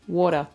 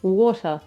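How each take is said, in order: First: "Water" short, falling, broad Aussie "wor-tuh"; Aussie water again. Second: "Water" with a broad Aussie vowel and no r. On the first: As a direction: clip "Water" in broad Australian. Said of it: "I never sound more Aussie than when I say water". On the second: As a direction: say "Water" the Aussie way, open "wor-tuh". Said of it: "I have so much trouble saying water". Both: Shown as a demonstration.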